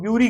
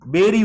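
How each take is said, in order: First: ब्यूरी said as "byoo-ree" with a y glide; teacher mimics the wrong ब्यूरी, "byoo-ree"; common mispronunciation. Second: बेरी said as "beh-ree", no y glide; teacher gives the right बेरी, "beh-ree"; correct pronunciation. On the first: Teacher shows students the wrong way, ब्यूरी as byoo-ree. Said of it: "इसको कई लोग ब्यूरी कहते हैं". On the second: Teacher corrects students, बेरी said beh-ree. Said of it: "बेरी उच्चारण है इसका". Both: Shown as a demonstration.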